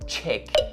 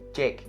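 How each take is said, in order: First: It starts with a voiceless CH sound. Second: It starts with a voiced J sound. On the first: The speaker calls it wrong. "Please don't say chick" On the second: The speaker calls it right. "this one has the voiced C H sound for its consonant"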